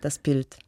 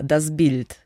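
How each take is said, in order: First: The s stays voiceless and the b sounds like p. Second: The s turns voiced and the b stays voiced. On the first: "auf Deutsch wäre das Bild" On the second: "mit dem russischen Akzent"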